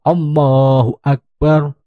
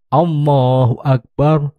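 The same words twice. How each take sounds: The two takes are said the same way.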